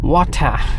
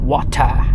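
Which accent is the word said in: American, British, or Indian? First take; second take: British; British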